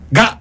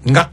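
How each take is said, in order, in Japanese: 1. 子音は硬い破裂音の g です。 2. 子音は柔らかい鼻音の ng です。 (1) "がじゃなくて" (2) "がですね"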